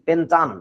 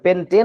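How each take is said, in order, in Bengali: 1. শেষ শব্দাংশে 'ah'-এর মতো স্বর আছে। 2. শেষ শব্দাংশে 'ay'-এর মতো স্বর আছে। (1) "হয়ে যাবে কি পেন্টান" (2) "উচ্চারণটাও চেঞ্জ হয়ে যাবে, পেন্টেন আর থাকবে না"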